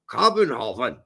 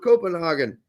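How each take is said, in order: First: It is said with a local Danish-style pronunciation. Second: It is said with the usual English pronunciation.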